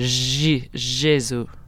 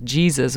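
First: It is said in a French style. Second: It is said in a usual, non-French way. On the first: "we would say Jésus" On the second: "We don't say like Jesus"

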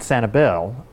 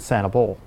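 First: The last syllable sounds like 'bel'. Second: The last syllable sounds like 'bull'. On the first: This is how other people say it. "you pronounce it Sani-belle" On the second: This is how the speaker's family says it. "I pronounce it Sani-belle"

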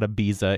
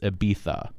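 First: The middle consonant is a buzzing z sound. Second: The middle consonant is a soft th sound. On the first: The speaker calls it wrong. "It is not Ibiza" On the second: The speaker calls it right. "sort of a TH sound rather than a Z"

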